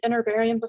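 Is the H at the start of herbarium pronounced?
no. The H is dropped, American style.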